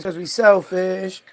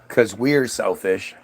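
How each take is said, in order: First: The 're' after 'we' is dropped. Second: The 're' after 'we' is pronounced. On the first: The speaker calls it right. "The only way that shit works is if you say it incorrectly" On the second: The speaker calls it wrong. "If you say because we're selfish, then it sounds stupid"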